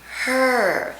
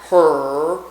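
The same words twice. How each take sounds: First: The R is light and brought forward. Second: The R is heavy and pulled back. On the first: The speaker calls it right. "bringing it forward in your mouth" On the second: The speaker calls it wrong. "not her"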